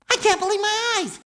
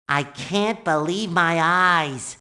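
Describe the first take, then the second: First: High, fast amazement; excited disbelief. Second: Low, slow amazement; awed disbelief. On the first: Sponge marvelling at the museum, high excited disbelief. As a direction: blurt it out, thrilled. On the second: Sponge marvelling at the museum, low awed disbelief. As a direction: take it in slowly, astonished. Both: Acted.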